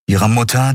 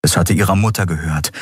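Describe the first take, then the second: First: „Mutter“ höher und lauter, steigend; betont Mutter. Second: Said in the usual way. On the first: A narrator's reading. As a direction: das Wort „Mutter“ bewegt hervorheben. Betonte Wiederholung. („Mutter“ ergriffen betont wiederholt)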